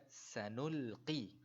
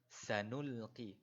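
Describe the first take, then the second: Both takes have the same delivery.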